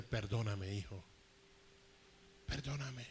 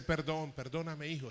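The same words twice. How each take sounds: First: A hint of a tearful father, lower, softer; father begging forgiveness. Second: Said in the usual way. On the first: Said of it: "empezó a decirme". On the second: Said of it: "Con ese".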